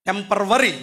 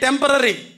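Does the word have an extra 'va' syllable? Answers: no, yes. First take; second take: yes; no. First: It has an extra 'va' syllable in the middle. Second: It has no extra syllable in the middle. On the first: This is the common local way of saying it. The speaker calls it wrong. "టెంపరవరీ మీ భాషలో" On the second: This is how the word actually goes. The speaker calls it right. "Actually టెంపరరీ"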